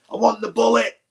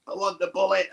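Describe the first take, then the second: First: Insistent demand. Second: Said in the usual way. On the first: Retold or imitated. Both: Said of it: "just being like a divvy".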